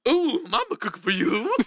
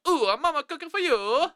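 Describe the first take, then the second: First: It is spoken in a goofy cartoon-bear voice. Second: It is spoken in a put-on Italian accent. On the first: "It's really more of like a Scooby-Doo, Yogi Bear kind of vibe" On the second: "So if I did an Italian, I'd go"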